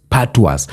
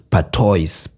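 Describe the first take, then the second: First: "patois" said pa-TWAH, the s silent; patois corrected. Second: "patois" said as it looks, pa-TOYS. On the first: Correcting the word for viewers, "patois" as pa-twah. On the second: Fixing how to say "patois", first take said pa-toys. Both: Shown as a demonstration.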